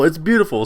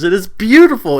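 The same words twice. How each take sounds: First: Said in the usual way. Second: Higher and louder, raving; excited gush. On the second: Real, not acted. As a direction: burst out with admiration. Gushing over Yang's speech.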